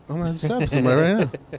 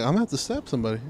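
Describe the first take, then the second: First: Fast, higher rushed threat; rushed mock threat. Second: Said in the usual way. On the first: Telling his friend about the rude guy, rushed mock threat. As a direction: blurt the threat out fast, half joking. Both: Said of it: "I'm like".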